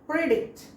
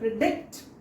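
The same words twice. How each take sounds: First: The stress is on the first syllable. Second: The stress is on the second syllable. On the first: The speaker calls it wrong. "If it is on first syllable" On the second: The speaker calls it right. "the stress goes with the second syllable"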